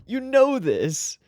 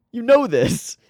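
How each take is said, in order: First: "You know this" slowed, stretching "know"; slow emphatic. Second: Said in the usual way. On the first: Real, not acted. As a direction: drag it out to insist. Says it twice, drawn out.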